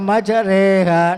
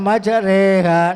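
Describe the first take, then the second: First: The vowel after the r leans toward 'e'. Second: The same.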